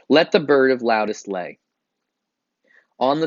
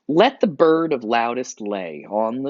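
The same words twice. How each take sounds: First: There is a pause after the word lay. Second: There is no pause after the word lay.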